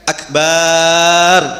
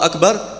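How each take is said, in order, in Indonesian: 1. Vokal setelah b dipanjangkan. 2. Vokal setelah b itu pendek. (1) "ketika akbar ini baknya dipanjangkan" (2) "Kalau kita baca normal"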